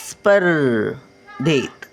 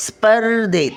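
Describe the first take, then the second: First: स्पर्धेत stretched out syllable by syllable; slow syllable reading. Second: Said in the usual way. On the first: Shown as a demonstration. Grandmother sounding out स्पर्धेत for children, slowly. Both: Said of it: "word then slow repeat".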